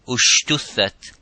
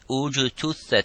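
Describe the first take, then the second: First: The second consonant is an 'sh' sound. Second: The second consonant is a 'j' sound. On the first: The speaker calls it wrong. "instead of saying ujtuthat or ushtuthat" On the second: The speaker calls it right. "if you wanted to sound the uh, uh, letter"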